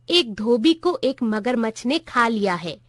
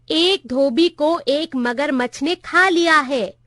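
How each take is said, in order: First: Said in the usual way. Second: Slow, raised voice for the hard of hearing; narrated shout. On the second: A narrator's reading. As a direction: spell it out slowly, half shouting. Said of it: "मैंने चिल्ला के कहा". (धीरे-धीरे, हल्का चिल्लाकर)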